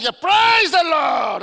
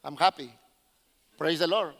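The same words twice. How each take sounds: First: Loud shouted praise, stretched long; exuberant church praise. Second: Low, subdued, barely joyful praise; mock understated joy, low and measured; restrained Anglo rejoicing. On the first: Retold or imitated. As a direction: belt it out like a rejoicing congregation. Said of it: "I know how Afro-Americans rejoice when you go to churches". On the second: Preacher mimics how Anglo people rejoice, low-key and restrained. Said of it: "Anglo people, is like".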